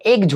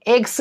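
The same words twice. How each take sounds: First: एग्ज with a voiced j/z at the end. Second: एग्स with a voiceless s at the end; wrong s ending. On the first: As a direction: say एग्ज as "egj", buzzed at the end. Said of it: "इसका उच्चारण ज होगा". (एग्ज के अंत में ज की आवाज़) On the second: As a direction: say एग्स as "eks", the mistaken way. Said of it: "नहीं होता है". (एग्स के अंत में स की आवाज़) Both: Shown as a demonstration.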